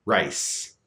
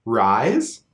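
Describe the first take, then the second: First: "rice" with a small raised I; "rice" with a tight Canadian vowel; Canadian raising in "rice"; raised diphthong. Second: "rise" with the full open I; "rise" with a wide vowel and rising tune; unraised I in "rise"; open diphthong. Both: Shown as a demonstration. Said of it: "Another example of this".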